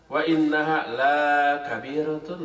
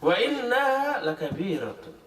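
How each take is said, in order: First: The vowel of la is drawn out long. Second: The vowel of la is kept short. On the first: Prayer is not heavy. The speaker calls it wrong. "Kalau dibaca panjang" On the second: Prayer is truly very heavy. The speaker calls it right. "Lam dibaca pendek"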